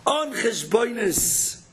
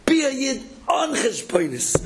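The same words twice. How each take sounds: First: On cheshbonis drawn out slowly, word by word; slow repeat. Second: Be a Yid on cheshbonis, with Be punched higher; emphatic call. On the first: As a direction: rabbi repeating his point, On cheshbonis slowed right down. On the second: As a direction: rabbi urging listeners, Be a Yid on cheshbonis said strong. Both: Shown as a demonstration.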